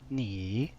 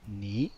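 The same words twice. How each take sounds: First: The pitch dips down then rises. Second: The pitch goes up. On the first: "Third tone down then up" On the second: "second tone goes up"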